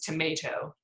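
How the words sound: The middle vowel is an 'ay' sound. "And ours is tomato"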